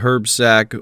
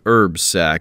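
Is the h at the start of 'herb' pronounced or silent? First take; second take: pronounced; silent. First: The h at the start of herb is pronounced. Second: The h at the start of herb is silent. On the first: The speaker calls it wrong. "saying herb with the H" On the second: The speaker calls it right. "or I guess I should say herb sack"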